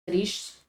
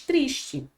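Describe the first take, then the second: First: "Triste" French, uvular r, final e silent; "Triste" clipped to one syllable, French r; French pronunciation. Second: "triste" as Portuguese tris-chee; "triste" with sh s and ending chee; Portuguese pronunciation. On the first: Teacher gives students the French, one syllable. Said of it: "o que vai mudar é essa fonética". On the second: Teacher contrasts Portuguese for students, saying tris-chee. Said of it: "Em português". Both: Shown as a demonstration.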